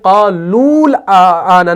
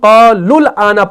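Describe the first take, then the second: First: The second syllable has a long vowel. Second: The second syllable has a short vowel. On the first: The speaker calls it wrong. "क़ालूल आना नहीं पढ़ते हैं" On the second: The speaker calls it right. "यानी हम क़ालुल आना पढ़ते हैं"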